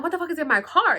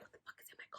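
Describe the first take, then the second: First: Said in the usual way. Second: Whispered disbelief. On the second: Retold or imitated. Reacting to the planned car search, whispered. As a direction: say it under your breath, barely audible. Under-breath first take of retold reaction.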